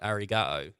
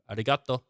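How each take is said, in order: First: It is said in a plain English accent. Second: It is said imitating a Japanese accent. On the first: "instead of being like arigato" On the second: "you go arigato"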